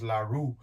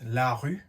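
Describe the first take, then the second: First: The name is said with an American pronunciation. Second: The name is said with a French pronunciation. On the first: "the U S and the brand and it's pronounced la rue" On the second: "in French is la rue"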